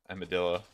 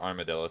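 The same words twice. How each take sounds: First: Armadillo said as "am-a-dillo"; first vowel without R. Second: Armadillo said as "ar-ma-dillo"; R pronounced. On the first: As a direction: open armadillo with a short "am", no R. Self-corrects between two pronunciations. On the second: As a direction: open armadillo with a clear "arm". Offers other pronunciation, then apologizes. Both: Shown as a demonstration.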